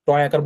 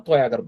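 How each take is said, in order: First: টয় with a hard retroflex T. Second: Touch the teeth for the T in তয়; dental T. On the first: Teacher showing what not to say, hard T in টয়. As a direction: curl the tongue back for the T in টয়. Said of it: "টয় আকার বলবো না". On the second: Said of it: "তয় আকার বলবো". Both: Shown as a demonstration.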